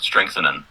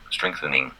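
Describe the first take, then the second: First: The last syllable ends with an 'an' sound. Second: The last syllable ends with an 'ing' sound. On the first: The speaker calls it wrong. "instead of more like an, an like strength, strengthening" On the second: The speaker calls it right. "you got to make it more sound like ing"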